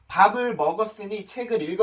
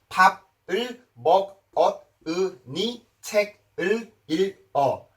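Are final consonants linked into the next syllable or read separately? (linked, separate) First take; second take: linked; separate. First: Final consonants carry over into the next vowel. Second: Each syllable is read separately, exactly as spelled. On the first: The speaker calls it right. "이렇게 읽으시는 거지" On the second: The speaker calls it wrong. "이런 식으로 발음을 하시는 게 아니란 말이에요"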